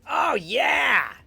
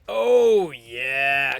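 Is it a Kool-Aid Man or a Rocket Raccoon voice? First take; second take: Rocket Raccoon; Kool-Aid Man. First: It is said in a Rocket Raccoon voice. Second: It is said in a Kool-Aid Man voice.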